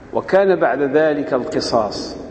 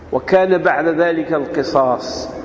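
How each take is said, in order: The two takes are said the same way.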